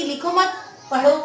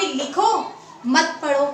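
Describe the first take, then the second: First: लिखो मत as one group, a break, then पढ़ो; pause after मत. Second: लिखो alone, a break, then मत पढ़ो together; pause after लिखो. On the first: Teacher showing an ambiguous sentence, pause after मत. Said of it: "लिखने के लिए बोल रहा है या पढ़ने". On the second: Teacher showing the other possible reading, pause after लिखो. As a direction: pause before मत, falling on पढ़ो. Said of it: "या फिर". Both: Shown as a demonstration.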